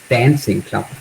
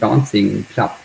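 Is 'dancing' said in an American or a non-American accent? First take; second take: American; non-American. First: The word dancing has an American vowel. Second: The word dancing has a non-American vowel.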